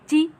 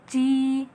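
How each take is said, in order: First: The vowel is said short, one beat. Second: The vowel is held for two beats. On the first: The speaker calls it wrong. "gak boleh ji" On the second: The speaker calls it right. "tapi dua harokat"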